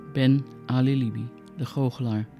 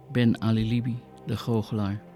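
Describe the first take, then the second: No difference in how they are said.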